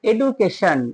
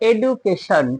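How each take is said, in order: Both takes have the same delivery.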